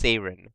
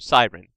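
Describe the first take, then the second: First: It is said the original Greek way. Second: It is said the usual English way. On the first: "spelled and pronounced Seiren" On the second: "in English it got changed to Siren"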